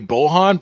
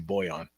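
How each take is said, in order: First: The middle consonant is an h sound. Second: The middle consonant is a y sound. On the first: This is the version most often heard. "I mostly hear Bohan" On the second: This is the version a few people use. "I've heard a couple of people say Boyan"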